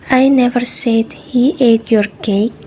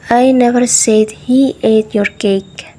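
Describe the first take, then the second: First: "said" as the most stressed word. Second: "never" as the most stressed word. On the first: Teacher showing a thought held but unspoken, stress on "said". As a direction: put extra stress on "said". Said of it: "By making said the most stressed". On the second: Teacher showing a denial of ever saying it, stress on "never". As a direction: put extra stress on "never". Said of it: "By making never the most stressed word". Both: Shown as a demonstration.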